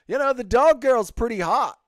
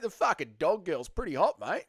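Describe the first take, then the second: First: High, loud mock voice of Nacho; imitating Nacho. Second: Imitating Nacho with a light Aussie accent; mock Aussie accent. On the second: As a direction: lay on an Aussie "mate" at the end. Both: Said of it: "No, Nacho's an Aussie".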